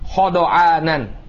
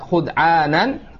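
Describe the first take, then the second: First: Every consonant carries an a vowel. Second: The first vowel is u, then d has no vowel. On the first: "dengan cara difathahkan semuanya" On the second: "dengan di dhammah kha-nya kemudian disukun dha-nya"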